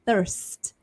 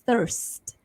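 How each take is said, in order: First: The R sound before the ST is pronounced. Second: The R sound before the ST is pronounced.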